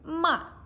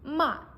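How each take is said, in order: No difference in how they are said.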